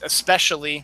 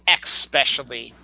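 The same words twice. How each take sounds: First: The word begins with an 'es' sound. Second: The word begins with an 'ex' sound. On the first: The speaker calls it right. "the proper pronunciation is especially" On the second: The speaker calls it wrong. "not X especially"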